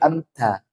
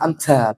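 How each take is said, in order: First: The t is said softly and lightly. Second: The t is said with force. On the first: The speaker calls it right. "Dia lemes gitu aja" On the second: The speaker calls it wrong. "Jangan amta"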